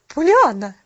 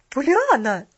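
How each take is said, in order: First: Loud, cold reprimand; icy interruption. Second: Loud, higher-pitched exclamation of protest; indignant outburst. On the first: Mrs. Carew interrupting the child, icy and loud. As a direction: cut in sternly with the name. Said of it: "ледяным тоном". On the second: Mrs. Carew protesting the child's chatter, loudly indignant. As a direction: cry the name out in outrage. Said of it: "возмутилась миссис Керрю". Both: A narrator's reading.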